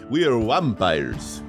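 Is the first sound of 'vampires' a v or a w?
w. Vampires starts with a w sound instead. The speaker calls it right.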